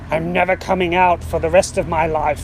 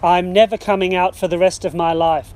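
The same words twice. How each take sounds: First: It is growled in a deep, doggy voice. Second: It is said in a firm, strict voice. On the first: "growled at Rumpus in his deepest doggy voice" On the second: "in his firmest, strictest voice"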